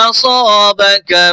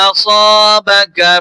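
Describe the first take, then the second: The two takes are said the same way.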